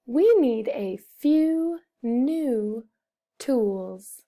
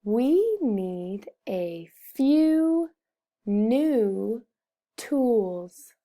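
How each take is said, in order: First: Slow but linked, one pause before tools; slow joined-up reading. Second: Very slow, pausing before the last words; word-by-word reading. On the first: Teacher repeats the sentence for pupils, slow joined-up reading. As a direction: read slowly, joining the words into a phrase. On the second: Teacher models a sentence for pupils, slow word-by-word reading. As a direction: read slowly, each word set apart. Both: Shown as a demonstration.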